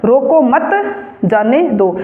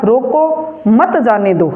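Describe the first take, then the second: First: Slow, "रोको मत" together, then a break before "जाने दो"; pause after मत. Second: Slow, with a break after "रोको", then "मत जाने दो" together; pause after रोको. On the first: Teacher showing the opposite meaning, let them go, pause after "मत". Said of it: "ये दोनों वाक्य ... विपरीत हैं". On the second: Teacher showing the comma means stop someone, pause after "रोको". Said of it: "किसी को रोकने के लिए बोला". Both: Shown as a demonstration.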